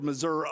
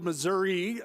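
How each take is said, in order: First: It is said with a local southern pronunciation. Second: It is said with the standard pronunciation. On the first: This is how locals in the south say it. "which is how they pronounce it down there in Missouri" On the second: This is how people in the middle of the state say it. "they pronounce it correctly there in mid-Missouri"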